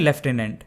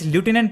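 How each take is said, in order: First: It is said as lef-tenant, British style. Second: It is said as loo-tenant, American style.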